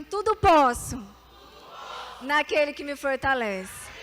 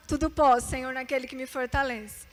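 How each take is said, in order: First: Proclaimed for repeating. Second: Said in the usual way. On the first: Shown as a demonstration. Preacher leads the congregation in a loud proclaimed verse. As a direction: call it out for the church to echo. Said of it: "Então repita assim comigo". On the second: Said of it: "Quando eu chegava em casa chorando".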